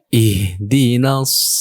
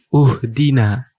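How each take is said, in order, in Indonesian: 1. Kata ini diawali dengan vokal i. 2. Kata ini diawali dengan vokal u. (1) "Kalau sendirian, kita mulai dari ayat yang kelima" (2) "yang belum tahu ada yang terjebak"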